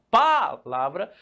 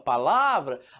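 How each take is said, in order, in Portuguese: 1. A sílaba tônica não está na sílaba do meio. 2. A sílaba tônica está na sílaba do meio. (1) "Você não fala palavra" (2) "você fala palavra"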